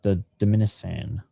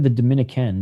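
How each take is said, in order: First: The C is said with an S sound. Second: The C is said with a K sound. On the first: The speaker calls it wrong. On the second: The speaker calls it right. "It's pronounced with a K sound. Isn't that what I said"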